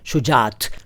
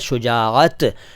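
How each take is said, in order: First: One long vowel runs straight into the final t. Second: A catch splits two vowels before the final t. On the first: The speaker calls it wrong. "शुजात दरअसल सही शब्द नहीं है" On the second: The speaker calls it right. "सही शब्द है शुजाअत"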